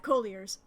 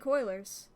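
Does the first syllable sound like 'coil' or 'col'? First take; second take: col; coil. First: The first syllable sounds like 'col'. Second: The first syllable sounds like 'coil'. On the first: The speaker calls it right. "yeah, colliers" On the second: The speaker calls it wrong. "Sorry, I fucked up"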